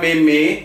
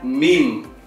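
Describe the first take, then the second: First: The word is pronounced just as it is spelled. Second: The word is pronounced differently from its spelling. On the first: This is how the word is written. "Tulisannya meme" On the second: This is how the word is actually read. "tapi bacaannya meme"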